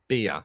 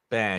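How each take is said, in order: First: The vowel is the close 'ee' of beer. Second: The vowel is the open 'air' of bear. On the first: "No, it's beer, beer" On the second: "in Norfolk, they call it bear"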